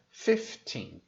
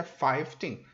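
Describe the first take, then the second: First: Slow fifteen, FIF with short I; F instead of V. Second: Put-on five teen with long I diphthong; wrong FIVE in fifteen. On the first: Teacher giving the correct form, slow FIF-TEEN for fifteen. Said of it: "fica fifteen". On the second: Teacher repeating the mistake, five teen with full FIVE. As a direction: say five teen as the word FIVE plus TEEN. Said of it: "Então não fica five teen". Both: Shown as a demonstration.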